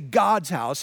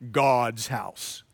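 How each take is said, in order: First: It is said in a plain, normal voice. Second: It is said in a scary, ominous voice.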